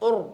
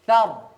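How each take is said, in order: First: The vowel is said with lips pushed forward. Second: The vowel is said without pushing the lips. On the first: The speaker calls it wrong. "tapi tidak sampai dimonyongkan" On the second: The speaker calls it right. "tidak, tapi thar"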